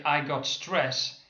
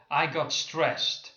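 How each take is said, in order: First: Slow careful "I got stress" ending on a plain s with no t; wrong form, slow demo. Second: Slow careful "I got stressed" with a clear final t; corrected form, slow demo. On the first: Teacher showing the wrong phrase to students, slow and careful. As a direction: say "stress" as the bare noun, no final t. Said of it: "if you say". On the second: Teacher modelling the better phrase for students, slow and clear. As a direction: land the t at the end of "stressed". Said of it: "it would be much better to use an adjective". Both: Shown as a demonstration.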